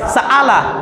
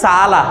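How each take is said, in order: First: It has a full glottal catch between vowels. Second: It has a softened catch between the vowels. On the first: The speaker calls it wrong. "যদি অ্যাপ্রোপ্রিয়েট হামজার উচ্চারণ করি তাহলে এটা উচ্চারণ হবে সাআলা" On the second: The speaker calls it right. "এটাকে কিভাবে পড়া হয় সালা"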